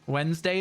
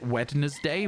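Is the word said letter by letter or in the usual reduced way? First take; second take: usual; letter by letter. First: It is said in the usual reduced way. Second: Every letter is sounded out, as spelled.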